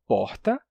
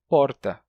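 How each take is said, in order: First: Said in the usual way. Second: "porta" with a tapped São Paulo R. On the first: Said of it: "eu digo porta". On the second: Shown as a demonstration. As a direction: flick the tongue for the R in "porta". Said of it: "em São Paulo poderia dizer porta". ("porta" com R paulistano, de tepe)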